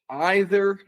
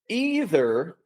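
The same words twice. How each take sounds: First: It is pronounced the British English way. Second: It is pronounced the American English way. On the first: "Either is more British English" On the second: "Either is a little bit more American English"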